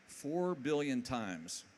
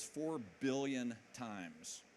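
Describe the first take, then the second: First: Four billion times, slow and louder, FOUR hit hardest; emphatic repeat. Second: Said in the usual way. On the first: Real, not acted. Telling the audience the download count, slow and emphatic. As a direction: drag out Four billion times to let it land.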